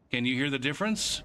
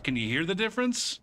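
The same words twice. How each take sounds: First: Said in the usual way. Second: Higher, pressing on "difference" in "Can you hear the difference?"; insistent repeat. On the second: Shown as a demonstration. Repeating the question to a friend who can't hear it, insistent. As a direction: push the question again, leaning on "difference". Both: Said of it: "can you hear me say the difference".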